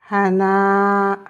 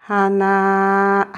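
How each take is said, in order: No difference in how they are said.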